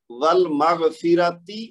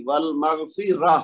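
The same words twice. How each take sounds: First: Slow "والمغفرتی" ending on a clear ti; ta with zer. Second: Slow "والمغفرہ" ending in h instead of ti; stopping with ha. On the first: Teacher reads the example before stopping, clear ti ending. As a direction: pronounce "والمغفرتی" with the final t-i sounded. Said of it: "اب تا کے نیچے زیر ہے". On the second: Teacher shows the stop, ti changed to h. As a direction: stop on "والمغفرہ" with a breathed final h. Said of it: "یہ بھی ہا میں بدل جائے گی". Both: Shown as a demonstration.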